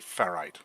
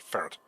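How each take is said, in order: First: The last syllable rhymes with bite. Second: The word sounds like the animal ferret. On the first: "I don't say ferrite" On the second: "I say ferret"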